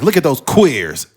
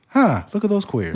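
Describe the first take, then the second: First: It is said in an angry, hostile tone. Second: It is said in a light, pleasant tone.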